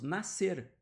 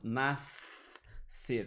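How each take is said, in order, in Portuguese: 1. Nenhum som de S separado é pronunciado antes do C. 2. Um som de S separado é pronunciado antes do C. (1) "nós falamos nascer. Como se esse S não existisse" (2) "nós não falamos nascer"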